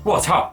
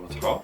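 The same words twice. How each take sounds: First: It sounds a bit frightened. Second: It sounds doubtful and questioning.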